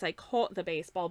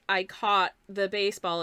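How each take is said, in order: First: The vowel in 'caught' is rounder. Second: The vowel in 'caught' is less rounded. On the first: This is how people speak in the nearby city. "a slightly rounder pronunciation of sort of the like A U, like aw sound" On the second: This is how people speak in the speaker's hometown. "as opposed to like"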